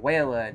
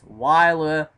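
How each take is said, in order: First: The first syllable sounds like 'way'. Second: The first syllable sounds like 'why'. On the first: The speaker calls it wrong. "They were pronouncing Way Australia, Way Australia, Wayla. No" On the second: The speaker calls it right. "it's Wyla"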